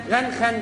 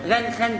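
Both takes have the same delivery.

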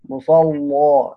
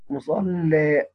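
First: The L is heavy and the final vowel open. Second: The L is light and the final vowel tilted. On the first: "بيقرأ بتغليظ اللام وقفا مع الفتح" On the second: "يرقق اللام يميل"

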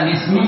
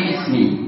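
First: The word is said without a glottal stop. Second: A glottal stop comes before 'ismi'. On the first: This is the shortened form used in reading. "Kenapa dibaca bismi" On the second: This is the original full form of the word. "kita tidak pernah membacanya dengan biismi"

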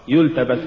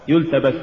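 No difference in how they are said.

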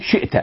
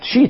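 First: The hamza is pronounced as a glottal stop. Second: The hamza is softened into a long vowel. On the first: This is the standard form of the word. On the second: This is the form used in the poem's verse.

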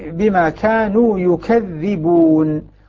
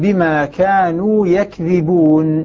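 First: The dh is doubled and the first vowel is u. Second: The dh is short and the first vowel is a. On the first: "ضم الياء وثقل الذال" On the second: "بفتح الياء مع التخفيف"

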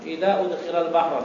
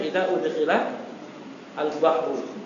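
First: The article merges into the preceding word. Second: The article is said again as a separate syllable. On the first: The speaker calls it right. "Antum bacanya" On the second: The speaker calls it wrong. "jangan sampai"

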